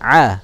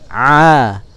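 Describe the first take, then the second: First: The vowel is held for one beat. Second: The vowel is held for two beats. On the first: "Kalau satu ketukan a" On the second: "dua ketukan a"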